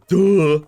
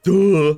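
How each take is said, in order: First: It is said with weighty, solemn gravity. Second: It is said with weighty, solemn gravity.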